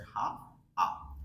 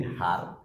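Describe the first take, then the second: First: "হা" without r, then "আ" without h either; silent r. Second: "হার" with its final r sounded; full form. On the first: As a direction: drop the r in "হা", then the h for "আ". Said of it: "আর sound silent হবে". ("হা" র ছাড়া, "আ" হ ছাড়া) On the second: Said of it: "আমরা এটাকে বলি". ("হার" র-ধ্বনি সহ) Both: Shown as a demonstration.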